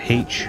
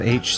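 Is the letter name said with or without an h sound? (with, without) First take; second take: with; without. First: The letter name starts with an h sound. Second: The letter name starts with no h sound. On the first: "why people would call it H" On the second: "instead of H"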